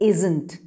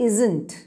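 Both takes have the same delivery.

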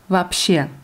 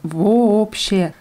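First: The o sounds at the start are reduced. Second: Both o sounds at the start are said fully. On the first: The speaker calls it right. "Aber ausgesprochen wird es" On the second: The speaker calls it wrong. "Das wird mit zwei O's geschrieben vorne"

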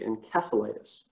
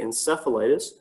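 First: It is pronounced the British way. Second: It is pronounced the North American way. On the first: This is the usual form in the UK. "Apparently in the UK, they like to say encephalitis" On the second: This is the usual form in Canada and the US. "Generally in Canada and the US, we say encephalitis"

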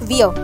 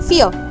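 First: The word begins with a voiced V sound. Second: The word begins with a voiceless F sound. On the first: The speaker calls it wrong. "not veer" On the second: The speaker calls it right. "V is always pronounced as F"

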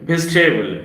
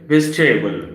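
The two takes are said the same way.

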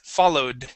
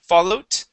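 First: The final sound is a D. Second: The final sound is a T. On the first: The speaker calls it right. "The D sounds like this" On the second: The speaker calls it wrong. "you're saying t"

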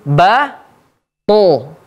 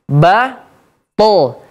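Both takes have the same delivery.

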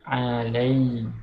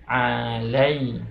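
Both takes have the same delivery.

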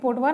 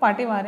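First: The first vowel sounds like 'o'. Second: The first vowel sounds like 'aa'. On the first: The speaker calls it wrong. "ये पोटवार नहीं" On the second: The speaker calls it right. "पाटेवार है"

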